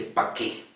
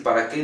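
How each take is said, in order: First: Pa' qué whispered with para cut to pa; clipped form. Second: Para qué with both syllables of para said clearly; full form. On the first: Teacher imitating a singer who clips para qué. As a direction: drop the ra and say pa' qué softly. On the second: Teacher contrasting full para qué with the singer's clipped form. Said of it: "en vez de decir". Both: Shown as a demonstration.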